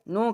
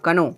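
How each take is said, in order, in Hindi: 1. शब्द की शुरुआत में n ध्वनि है। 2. शब्द की शुरुआत में k ध्वनि है।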